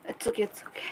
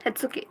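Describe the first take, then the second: First: Hushed reassuring whisper; gentle whispered comfort; soft whisper. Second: Said in the usual way. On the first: Real, not acted. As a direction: breathe "It's okay" almost soundlessly. Comforting a friend softly.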